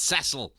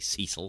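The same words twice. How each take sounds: First: The name is said the non-American way. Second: The name is said the American way. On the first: The speaker calls it right. "It's Cecil" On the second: The speaker calls it wrong. "only Americans and I think you guys who say Cecil"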